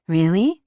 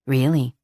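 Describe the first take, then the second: First: Rising, delighted disbelief; light surprised question, lifting at end. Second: Settled, falling, heartfelt; sincere. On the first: Surprised at his offer. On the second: Sincere thanks after hug. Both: Acted.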